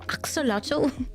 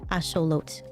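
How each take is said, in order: First: It starts with 'ax' and ends in 'lotl'. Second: It starts with 'ash' and ends in 'lot'. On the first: This is the familiar English pronunciation. "Axolotl is way better" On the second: This is the original pronunciation. "Asholot is the actual pronunciation"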